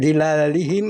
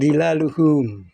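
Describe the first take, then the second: First: The word ends with 'i' vowels: dhilalihim. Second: The word has a 'u' before -hum. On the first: The speaker calls it wrong. "tidak dhilalihim" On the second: The speaker calls it right. "tapi dhilaluhum"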